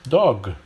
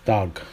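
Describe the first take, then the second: First: Said in the usual way. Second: "Dog" with ah in place of o; American ah vowel. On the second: Shown as a demonstration. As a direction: say "Dog" as "dahg", American style. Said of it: "a for o".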